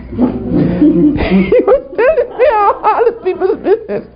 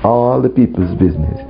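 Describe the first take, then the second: First: High, squealing through laughter; laughing. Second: Said in the usual way. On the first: Real, not acted. Preacher admitting the devil's gossip, laughing hard. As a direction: say it helplessly cracking up.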